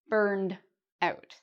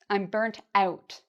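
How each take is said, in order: First: The first word ends with a d sound. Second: The first word ends with a t sound. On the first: "we'd actually say burned out with a d sound at the end" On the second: "burnt out with a t sound at the end. This is a very British or Canadian pronunciation"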